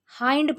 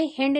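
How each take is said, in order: First: हाइंड with a long "aai" vowel, like hind rhyming with kind; correct pronunciation. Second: हिंड with a short "i" vowel; wrong pronunciation. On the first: Teacher models the right reading of hind, clear diphthong. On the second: Teacher shows students the wrong way to read hind. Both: Shown as a demonstration. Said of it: "इसे हिंड नहीं पढ़ेंगे".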